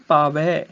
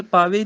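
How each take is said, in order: First: ਪਾਵੈ ending in open ai; correct vowel shown. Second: ਪਾਵੇ ending in close e; wrong vowel shown. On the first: Teacher correcting the reading, ਪਾਵੈ with open ai. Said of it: "ਪਾਵੇ ਨਹੀਂ". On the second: Teacher showing the misreading, ਪਾਵੇ with close e. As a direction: end ਪਾਵੇ on a narrow ay. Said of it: "ਟਹਿਲ ਪਾਵੇ ਨਹੀਂ". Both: Shown as a demonstration.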